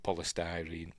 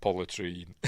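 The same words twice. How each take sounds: First: Said in the usual way. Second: "polytrene" with the middle syllable of polystyrene squashed; mate's pronunciation. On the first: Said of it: "We call it polystyrene". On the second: Retold or imitated. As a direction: say "polytrene", dropping the "sty" sound. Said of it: "My mate calls it polytrene".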